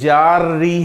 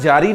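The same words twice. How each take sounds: First: The 'r' is held and doubled. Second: The 'r' is short and single. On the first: It is the Arabic grammar term. "रा के ऊपर शद है" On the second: It is the everyday Urdu word. "ये उर्दू वाला जारी नहीं है"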